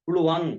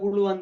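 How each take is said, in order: First: It is said like 'puluwan'. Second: It is said like 'pulu vanda'. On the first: The speaker calls it right. "புழுவாங் புழுவாங் புழுவாங்க இந்த மாதிரி" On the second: The speaker calls it wrong. "அப்படி புழு வந்த புழு வந்த அப்படி உச்சரிக்க கூடாது"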